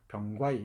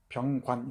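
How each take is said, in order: First: The final n becomes an i vowel. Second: The name ends in a final n sound. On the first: This is how dialect speakers read the name. "전라도 방언에서는 그 병과이 이런 식으로 읽어내죠" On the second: This is the standard form that is hard for dialect speakers. "이 병관 이렇게 발음하기 어려워"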